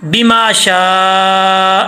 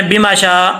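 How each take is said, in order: First: بما شاء with the ما held long and slow; long madd. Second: بما شاء said quick, ما not lengthened; wrong short reading. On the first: Teacher shows students the correct long madd, slow recitation. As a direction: stretch the ما in بما شاء, then stop on شاء. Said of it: "اس کو لمبا کرنا ہے". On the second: Teacher imitates the common student mistake, quick plain reading. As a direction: rush through بما شاء without the madd. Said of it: "بما شاء، ایسا نہیں". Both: Shown as a demonstration.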